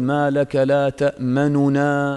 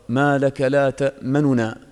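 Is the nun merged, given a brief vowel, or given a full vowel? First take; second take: full vowel; brief vowel. First: The first nun carries a full, complete vowel. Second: The first nun carries a brief, hurried vowel. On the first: The speaker calls it wrong. "ما تشبع الضمة، ما تقول" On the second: The speaker calls it right. "هذا الروم ... هكذا سريعا"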